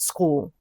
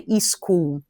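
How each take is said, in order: First: The word begins directly with the 's' sound. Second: An extra vowel is added before the 's'. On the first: The speaker calls it right. "not school" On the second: The speaker calls it wrong. "Brazilian will say e school"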